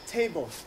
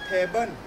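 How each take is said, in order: First: The final L sounds like a clear L. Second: The final L sounds like an N. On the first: "it's actually table" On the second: "Thai accent"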